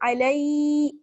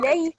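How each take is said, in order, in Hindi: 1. स्वर लंबा खींचा गया है। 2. स्वर जल्दी और छोटा बोला गया है। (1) "ऐसे नहीं खींच रहे हैं" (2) "बल्कि जल्दी पढ़ रहे हैं"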